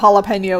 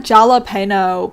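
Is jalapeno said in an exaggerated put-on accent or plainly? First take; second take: plain; exaggerated. First: The word is said plainly without a put-on accent. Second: The word is said in an exaggerated put-on accent. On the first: This is the ordinary way the word is pronounced. The speaker calls it right. "obviously I know jalapeno is how it's pronounced" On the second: The speaker mocks people over-pronouncing foreign menu words. The speaker calls it wrong. "What's a menu item that I can like L-ify in my voice right now?"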